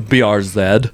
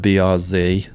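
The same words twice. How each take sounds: First: The final letter is said the Canadian way. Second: The final letter is said the American way.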